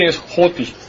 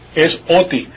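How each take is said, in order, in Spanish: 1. La palabra empieza con un sonido h aspirado. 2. La palabra empieza directamente con una vocal. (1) "Y si tiene la respiración así" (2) "Si tiene la respiración así"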